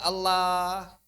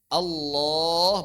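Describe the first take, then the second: First: The L is said light and thin. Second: The L is said heavy and thick. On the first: The speaker calls it wrong. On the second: The speaker calls it right.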